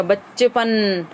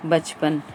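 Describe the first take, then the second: First: बच्चेपन slowed, leaning hard on the double च्च; stress on doubled consonant. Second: Said in the usual way. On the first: Shown as a demonstration. Teacher shows the double-stressed sound, बच्चेपन slow and weighted. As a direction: press the tongue on च्च in बच्चेपन and draw it out. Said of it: "double बार अपने को जोर लगा". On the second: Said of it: "जीभ पर जोर पड़ता है".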